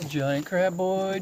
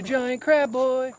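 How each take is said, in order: First: Plain. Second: Drawn out high and slow; high slow sing-song. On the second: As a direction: croon it like a pet name. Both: Shown as a demonstration.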